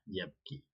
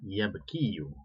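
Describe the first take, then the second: First: The word ends on 'ki' with no final vowel. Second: The word ends with an added final 'yu' sound. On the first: This is how the weak verb is actually read. "cukup dibaca yabki saja ya. Yabki tidak perlu dibaca domahnya" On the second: This is the underlying full form of the verb. "seharusnya aslinya adalah dia yabkiyu, yaitu berharakat dom"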